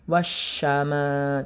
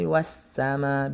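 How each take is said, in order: First: It has an sh sound. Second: It has a plain s sound. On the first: The speaker calls it wrong. "jangan wasyama" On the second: The speaker calls it right. "tapi wassama"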